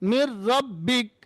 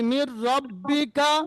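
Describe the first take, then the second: First: The phrase ends on a consonant. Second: The phrase ends with a final vowel. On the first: The reader stops on this word. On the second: The reader continues without stopping.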